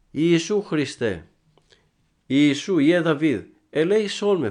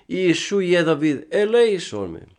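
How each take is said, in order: First: High, loud, pleading call for mercy; the blind man calls out loudly for mercy; blind man's cry. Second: Higher, louder, insistent plea; the blind man cries out louder despite the crowd; crying out even louder. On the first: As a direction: cry out to Jesus from the roadside. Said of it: "φώναζε ο τυφλός". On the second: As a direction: shout it over the crowd trying to hush him. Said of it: "περισσότερο ακόμα φώναζε". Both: Retold or imitated.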